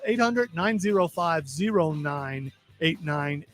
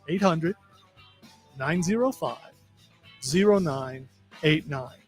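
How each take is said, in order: First: The number is said at a normal quick pace. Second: The number is said slowly and deliberately.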